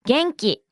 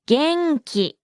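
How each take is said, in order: First: Said in the usual way. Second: 元気 drawn out in two separate beats; slow model. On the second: Shown as a demonstration. Teacher breaks down the word for fine to learners, slowly. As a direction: say 元気 slowly, beat by beat.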